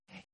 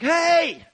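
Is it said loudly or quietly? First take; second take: quietly; loudly. First: It is said quietly and faintly. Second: It is said loudly and sharply.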